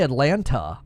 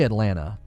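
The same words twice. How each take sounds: First: The second T is clearly pronounced. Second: The second T is soft, almost dropped. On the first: "I don't think I say Atlanta" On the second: "I roll right through it"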